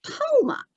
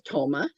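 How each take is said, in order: First: Toma repeated in a very high puppet voice; high spirit echo. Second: Said in the usual way. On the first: Acted. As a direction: squeak the name Toma back. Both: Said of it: "And he says".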